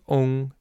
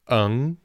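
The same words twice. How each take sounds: First: The final has a rounded, ong-like vowel. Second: The final has an unrounded, eng-like vowel. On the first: This is the southern or Taiwanese way of saying it. "In southern China, in Taiwan ... more of an O sound" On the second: This is the northern way of saying it. "I say particularly northern China in my experience, they say ung"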